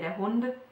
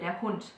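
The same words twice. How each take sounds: First: The word ends with a voiced D sound. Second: The word ends with a voiceless T sound. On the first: The speaker calls it wrong. "we wouldn't say der Hund" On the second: The speaker calls it right. "but we would say der Hund"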